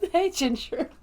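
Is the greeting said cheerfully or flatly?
cheerfully. The greeting sounds cheerful and upbeat. The speaker calls it wrong. "I don't say it that happy"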